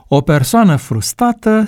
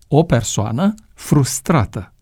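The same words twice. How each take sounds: First: The second r sound is dropped. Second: The second r sound is clearly pronounced. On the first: The speaker calls it wrong. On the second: The speaker calls it right.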